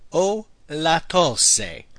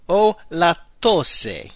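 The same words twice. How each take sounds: First: Very slow, deliberate repeat. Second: Very slow, careful model phrase. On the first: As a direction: drag it out for learners. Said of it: "I have a cough". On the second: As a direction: give every syllable room. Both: Shown as a demonstration.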